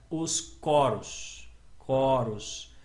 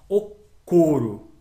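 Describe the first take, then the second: First: "coros" with a wide-open first o, drawn out slowly; open vowel. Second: "coro" with a closed first o, drawn out loud; closed vowel. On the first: Teacher showing students the plural's sound, open vowel. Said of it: "som aberto". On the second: Teacher showing students the singular's sound, closed vowel. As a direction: say "coro" with a tight, closed stressed o. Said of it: "som fechado". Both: Shown as a demonstration.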